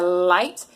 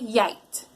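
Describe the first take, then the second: First: The word begins with a clear L sound. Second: The word begins with a gliding Y sound. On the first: The speaker calls it right. "Instead of saying ladder or lamp or light" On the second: The speaker calls it wrong. "they say yite. They sort of glide into it"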